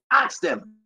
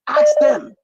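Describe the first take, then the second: First: Said in the usual way. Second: Sudden, much higher, louder shout; shouted demand. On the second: Real, not acted. Host demanding Liberians ask the children, shouting. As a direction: hurl it at the audience.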